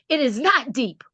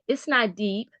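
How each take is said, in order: First: It is said in a loud, harsh tone. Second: It is said in a soft, gentle tone. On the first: It comes across as a stern order. The speaker calls it wrong. "I said it the other way" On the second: Reassurance that the water is safe. The speaker calls it right. "I thought I was saying to him"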